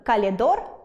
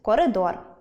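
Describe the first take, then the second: First: The word has an 'l' sound in the middle. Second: The word has an 'r' sound in the middle. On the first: The speaker calls it wrong. "Неправильне вживання звуку" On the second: The speaker calls it right. "замість «коридор»"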